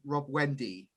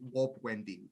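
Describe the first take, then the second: First: The first word starts with an R sound. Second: The first word starts with a W sound. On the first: "you have Rob Wendy" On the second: "my R's and W's they get kind of confused"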